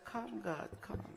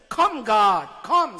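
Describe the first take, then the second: First: It is read without feeling, in a flat tone. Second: It is read with feeling and lively intonation. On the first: The speaker calls it wrong. "Rather than say" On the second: The speaker calls it right. "Read with feeling, Betty, and intonation"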